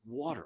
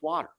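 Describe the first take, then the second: First: It is said in a standard American accent. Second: It is said in a Philadelphia accent. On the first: "it's not water. It's water" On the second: "that's the way we say it in Philly"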